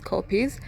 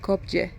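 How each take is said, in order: First: It sounds like the word 'copies'. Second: It does not sound like 'copies'. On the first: The speaker calls it right. "It's copies" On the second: The speaker calls it wrong. "I've been saying kopje"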